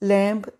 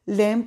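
First: A 'b' sound is heard at the end. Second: No 'b' sound is heard at the end. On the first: The speaker calls it wrong. "नहीं" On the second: The speaker calls it right. "Pronounce करना है"

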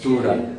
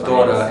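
First: The first vowel is an u sound. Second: The first vowel is an o sound. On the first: The speaker calls it right. "es tura" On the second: The speaker calls it wrong. "no es torra"

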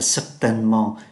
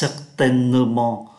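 First: The middle vowel is dropped and said quickly. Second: The middle vowel is clearly pronounced. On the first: The speaker calls it right. "chúng ta đọc nhanh là certainement" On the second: The speaker calls it wrong. "Thay vì phát âm là certainement"

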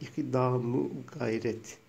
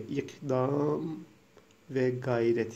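First: A vowel joined to 'ikdam' links the nouns. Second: A separate word 've' links the two nouns.

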